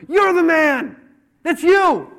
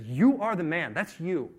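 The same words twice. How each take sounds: First: Full-force high shout; shouted accusation. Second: Measured, stress on YOU; firm accusation. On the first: Nathan confronting David with his guilt, shouted accusation. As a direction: hammer each word, very loud. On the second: Nathan telling David he is guilty, firm accusation. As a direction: lean on YOU at the start, without shouting. Calmer retelling of the same accusation. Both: Acted.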